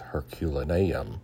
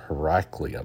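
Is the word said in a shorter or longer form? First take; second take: longer; shorter. First: The name is said in its full, longer form. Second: The name is said in a shorter, clipped form. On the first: The speaker calls it right. "but I think it's Herculaneum" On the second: The speaker calls it wrong. "I think I always mispronounce it. I pronounce it Heraclium"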